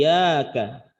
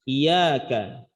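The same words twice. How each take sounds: The two takes are said the same way.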